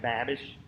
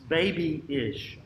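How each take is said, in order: First: The first syllable sounds like 'bab'. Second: The first syllable sounds like 'bay'. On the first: The speaker calls it wrong. "Looks like babish" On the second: The speaker calls it right. "It's baby-ish in one word"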